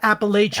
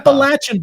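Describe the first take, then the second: First: The 'la' vowel is long, as in 'lay'. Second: The 'la' vowel is short, as in 'latch'. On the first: The speaker calls it wrong. "It's not Appalachian" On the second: The speaker calls it right. "it's Appalachian, by the way"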